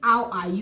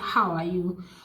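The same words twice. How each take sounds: First: The h sound at the start is dropped. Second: The h sound at the start is pronounced. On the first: The speaker calls it wrong. "you were not actually pronouncing the the H sound" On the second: The speaker calls it right. "instead of saying"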